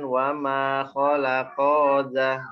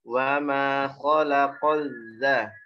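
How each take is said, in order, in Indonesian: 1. Vokal setelah q dipanjangkan. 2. Setelah q, langsung masuk ke dh yang ganda. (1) "Jangan dipanjangin kofnya" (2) "dari kof langsung masuk ke zalnya"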